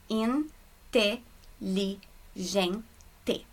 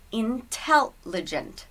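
First: "Inte-li-gen-te" very slowly, a pause between Portuguese syllables; "Inte-li-gen-te" sounded out the Portuguese way, syllable by syllable; Portuguese syllable split. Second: "intelligent" divided by sound into in-tel-ligent; English "intelligent", pausing after "in" and "tel", "ligent" kept together; English syllable split. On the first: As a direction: break "Inte-li-gen-te" into five slow syllables, in-te-li-gen-te. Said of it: "Em português, a gente junta as letrinhas". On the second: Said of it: "essa separação pelos sons". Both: Shown as a demonstration.

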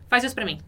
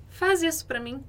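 First: "faz" flat then falling, a plain command; blunt falling order. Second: "Faz" high with a rising end, softening the request; entonação suave e ascendente em "Faz isso pra mim"; gentle rising request. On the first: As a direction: say "faz isso pra mim" as a curt order, falling at the end. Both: Shown as a demonstration. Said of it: "É bem diferente de".

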